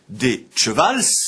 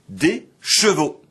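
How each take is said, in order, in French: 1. Le mot se termine par un l et un s. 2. Le mot se termine par une voyelle o simple. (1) "On disait donc d'abord" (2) "et enfin"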